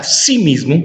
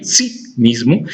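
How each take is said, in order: First: Said in the usual way. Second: "sí" set apart, then "mismo", slowly; slow right down and isolate "sí" before "mismo"; stress on accented sí. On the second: Shown as a demonstration. Teacher showing the tilde on sí, "sí" stressed and separate. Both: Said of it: "sí lleva tilde en la I".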